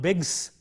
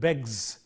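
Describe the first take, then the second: First: The word ends in a voiceless s sound. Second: The word ends in a voiced z sound. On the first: The speaker calls it wrong. "not begs" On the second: The speaker calls it right. "Z, ... but begs"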